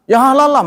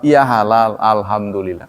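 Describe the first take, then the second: First: Angry retort. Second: Calm gracious answer. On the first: Retold or imitated. Meatball seller snapping at a customer who asked, angry. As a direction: bite back as if insulted by the question. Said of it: "marah dia". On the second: Shown as a demonstration. How a seller should answer a customer asking about halal, calmly. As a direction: answer kindly, with no offence taken. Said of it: "Cukup jawab".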